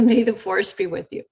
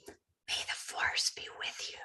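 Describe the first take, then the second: First: Said in the usual way. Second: Soft, unvoiced, slow whisper; hushed whisper into the phone. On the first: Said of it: "I said". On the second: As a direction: breathe it like a secret blessing. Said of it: "I kind of whispered over the phone".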